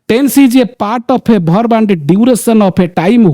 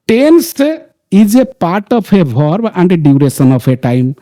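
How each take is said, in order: First: The sentence is spoken at a fast pace. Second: The sentence is spoken at a slower pace. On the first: "मैं तो speed से बोल रहा हूं" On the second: "थोड़ा सा slow कर देता हूं"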